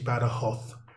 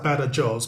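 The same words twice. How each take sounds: First: It is said the way locals say it. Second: It is said the way it is spelled. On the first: This is how people in the region say it. The speaker calls it right. "it's actually Badajoz, as they pronounce it here" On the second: This is how the written name suggests it sounds. The speaker calls it wrong. "It looks like"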